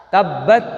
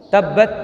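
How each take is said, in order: The two takes are said the same way.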